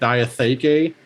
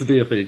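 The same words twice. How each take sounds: First: The word is said with more than three syllables. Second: The word is said with only three syllables. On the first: This is the accepted pronunciation. The speaker calls it right. "the correct way to do it is like Diatheke" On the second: This is a deliberate artistic choice. The speaker calls it wrong. "I wanted three syllables ... I'm pronouncing it differently"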